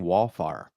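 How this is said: The first vowel is flattened toward 'ah'. This is how the speaker said it from home. "I was saying wallfire"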